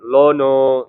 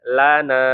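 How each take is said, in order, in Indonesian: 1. L-nya tebal, vokalnya jadi gelap. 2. L-nya tipis, vokalnya tetap terang. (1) "jangan lono ya" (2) "tapi lana ya"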